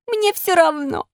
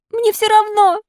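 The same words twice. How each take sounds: First: High, slow stubborn refusal; defiant puppet. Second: Very high, insistent puppet cry; louder defiance. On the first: Puppet warned he will get worse, stubbornly defiant. Puppet defies fairy's first warning. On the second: Puppet warned fever will kill him, defiantly crying out. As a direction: throw it back higher and more forcefully. Puppet defies warning of death. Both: Acted.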